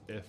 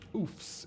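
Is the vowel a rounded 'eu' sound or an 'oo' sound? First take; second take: rounded eu; oo. First: The vowel is a short rounded 'eu' sound. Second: The vowel is a full 'oo' sound. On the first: The speaker calls it right. "It's if" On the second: The speaker calls it wrong. "I really pronounced the O and the oofs there"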